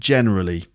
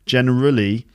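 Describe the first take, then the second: First: The stress falls on the first syllable. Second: The stress falls on a later syllable. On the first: The speaker calls it right. "generally is on the first syllable too" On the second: The speaker calls it wrong. "So not generally"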